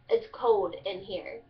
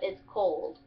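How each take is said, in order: First: Slow Kentucky "cold" said as "code"; Kentucky dialect. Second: Said in the usual way. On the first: Shown as a demonstration. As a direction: drop the L in "cold", unhurried Kentucky style. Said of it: "you take out the L". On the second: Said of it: "instead of".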